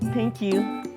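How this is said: It is said in a sarcastic tone. The judges are believed to have rigged the pageant. "sarcastic tayo"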